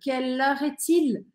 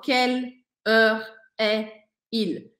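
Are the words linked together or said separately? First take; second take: linked; separately. First: The words run together without any breaks. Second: Each word is said separately, with small breaks. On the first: The speaker calls it right. "Eu falo meio que tudo junto" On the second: The speaker calls it wrong. "eu não falo"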